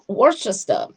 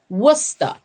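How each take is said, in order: First: The name is pronounced the way it is spelled. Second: The name is pronounced differently from its spelling. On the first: The speaker calls it wrong. "like how you see read it, but it's not Worcester" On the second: The speaker calls it right. "It's called Worcester"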